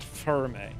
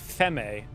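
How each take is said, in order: First: It is said with an r sound. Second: It is said without an r sound. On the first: "not ferme" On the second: "I said femme"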